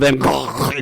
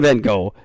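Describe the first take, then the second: First: The name gets an elaborate, foreign-sounding pronunciation. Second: The name gets a simple, everyday English pronunciation. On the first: The speaker is trying to sound sophisticated. The speaker calls it wrong. "fancy people, you don't have to call him Van Gogh" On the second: The speaker is just saying the name normally. The speaker calls it right. "Just call him Van Gogh. It's okay"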